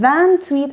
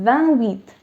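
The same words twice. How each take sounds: First: The T is linked to the following vowel. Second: The T is not linked to the vowel. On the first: The speaker calls it right. "you'll see me say vingt-huit" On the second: The speaker calls it wrong. "and not vingt-huit"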